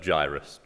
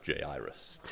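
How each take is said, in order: First: "Jairus" as JY-rus, low, two syllables; English pronunciation. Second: "Jairus" as jay-EYE-rus, low and soft; alternative pronunciation. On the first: Preacher apologises for his English pronunciation, JY-rus. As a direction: say "Jairus" with first syllable rhyming with "eye". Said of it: "forgive my, uh, English pronunciation". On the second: Preacher adds the actor's version, three-syllable pronunciation. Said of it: "And he says". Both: Shown as a demonstration.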